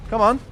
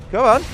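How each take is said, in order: First: Said in the usual way. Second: Higher, louder pleading yell; will the shot to hit; urgent cheer. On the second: Real, not acted. Urging the shot to land.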